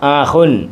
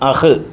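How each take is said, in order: First: The word ends with an added '-un' sound. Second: The word ends bare, without the '-un' sound.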